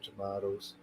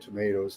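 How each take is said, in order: First: It is said in a British accent. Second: It is said in a non-British, American-style accent. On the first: "The Brits pronounce... They say tomatoes" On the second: "They don't say tomatoes"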